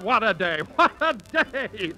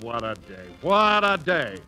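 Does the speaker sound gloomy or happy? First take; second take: happy; gloomy. First: It is said in a happy, lively tone. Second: It is groaned in a gloomy, sleepy tone. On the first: The day ahead feels wonderful. "notice the difference" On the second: The day ahead feels like a burden. "He opens one eye and groans"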